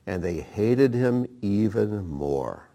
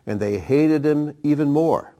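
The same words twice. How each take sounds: First: Hated him said slowly and evenly; calm, deliberate scripture reading. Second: Louder and higher, HATED stressed; emphatic repeat with HATED stressed. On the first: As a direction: read it out slowly, measured. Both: Acted.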